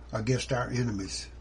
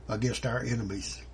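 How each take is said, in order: Both takes have the same delivery.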